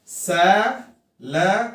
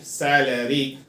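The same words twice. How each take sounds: First: "सैलरी" in three parts with clear gaps; syllable by syllable. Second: Said in the usual way. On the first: Shown as a demonstration. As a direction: spell out सै... ल... री slowly by sound. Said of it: "how many syllables are there". ("सैलरी" को सै-ल-री में तोड़कर) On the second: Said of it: "याद करने का तरीका क्या है".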